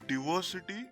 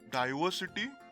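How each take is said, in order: First: The first i sounds like 'ee'. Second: The first i sounds like 'eye'. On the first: "in the American format, the I in these words is pronounced as E" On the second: "The I in these words is pronounced as it is, that is, as I"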